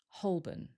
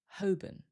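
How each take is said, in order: First: The L is very lightly pronounced. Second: The L is silent, second syllable weak. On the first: "Some people might pronounce the L. If they do, it's very light" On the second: "we don't usually hear the L, and the second syllable becomes weaker"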